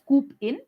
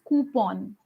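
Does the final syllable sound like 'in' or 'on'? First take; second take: in; on. First: The final syllable ends with an 'in' sound. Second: The final syllable ends with an 'on' sound. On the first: The speaker calls it wrong. "some of us, you know, pronounce it as coop in" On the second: The speaker calls it right. "The word C O U P O N is pronounced as coupon"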